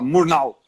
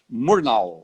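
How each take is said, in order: First: The name is said with a German pronunciation. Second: The name is said with an English pronunciation. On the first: The speaker calls it right. "Alemão fala Murnau" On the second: The speaker calls it wrong. "inglês que fala Murnau"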